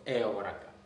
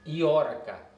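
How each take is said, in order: First: The word begins with an 'eh' sound. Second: The word begins with an 'ee' sound. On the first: This is the standard Attic form. "instead of Eoraka" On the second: This is the Doric dialect form. "the same Ioraka"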